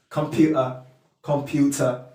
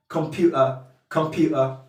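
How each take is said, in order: Both takes have the same delivery.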